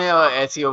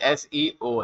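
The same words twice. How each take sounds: First: The letters are run together quickly as one word. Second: Each letter is said separately and distinctly. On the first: The speaker calls it wrong. "हम fast में एसईओ बोल जाते हैं" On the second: The speaker calls it right. "लेकिन एसईओ है"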